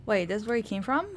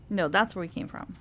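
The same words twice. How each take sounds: First: From lifted as a question, rising tune; stress on from. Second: That's hit, falling tune; stress on that's. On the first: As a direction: ask it with from rising at the end. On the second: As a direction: correct it by leaning on that's. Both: Real, not acted.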